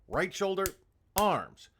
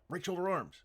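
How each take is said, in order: First: The command is slow with a pause inside. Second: The command is rushed together without a pause. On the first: The speaker calls it right. "Just slow down your commands. Get a metronome" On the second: The speaker calls it wrong. "It's not right shoulder arms"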